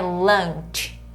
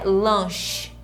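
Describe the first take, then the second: First: It is said with the English 'lunch' vowel. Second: It is said like Portuguese 'lanche'. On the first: The speaker calls it right. "É lunch" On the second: The speaker calls it wrong. "Não é lunch"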